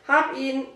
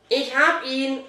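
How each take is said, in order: First: Mildly relieved, higher report. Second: Raised, mildly triumphant call. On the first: Boy has the leash at last, mild relief. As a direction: let a touch of relief in. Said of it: "meldete sich Dominik erleichtert". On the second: Boy has grabbed the dog, triumphant call. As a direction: announce your catch with a touch of triumph. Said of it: "rief Fabian triumphierend". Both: A narrator's reading.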